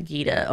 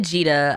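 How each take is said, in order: First: Gita said "GEE-ta", G as in geese; Gita with hard G. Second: Gita said "JEE-ta", G as in jeep; Gita with soft G. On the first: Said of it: "I'm still probably pronouncing it wrong". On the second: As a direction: say Gita starting with a soft J sound. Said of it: "Or is it Gita?". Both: Shown as a demonstration.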